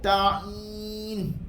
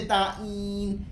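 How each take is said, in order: First: The ain sound is made without nasal resonance. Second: The ain sound is pushed through the nose. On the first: The speaker calls it right. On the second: The speaker calls it wrong.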